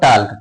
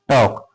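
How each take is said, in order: First: The L sound is pronounced in the word. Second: The L sound is left silent in the word. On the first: The speaker calls it wrong. "Not टाल्क, टाल्क इसको नहीं पढ़ते" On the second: The speaker calls it right. "क्या पढ़ते हैं, टॉक"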